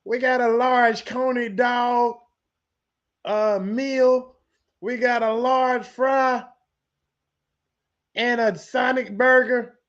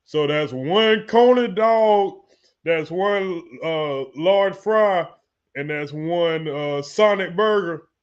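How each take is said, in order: First: Order voice. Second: Slow, deliberate order read-back; cook reading back order. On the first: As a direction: call the order in slowly, like into a drive-thru speaker. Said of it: "let me do my order voice". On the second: Cook repeating the customer's order back, slow read-back. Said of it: "hold on, let me do". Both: Acted.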